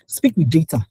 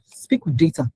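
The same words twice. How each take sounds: First: Breathy whisper of the key phrase. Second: Said in the usual way. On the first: Shown as a demonstration. Speaker whispering advice to the audience.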